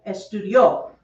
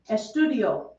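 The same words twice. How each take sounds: First: Estudió said es-tu-DIÓ; stress on final syllable. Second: Estudio said es-TU-dio; stress on middle syllable. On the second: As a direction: stress TU in estudio, ending unstressed. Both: Shown as a demonstration. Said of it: "can you hear the difference?".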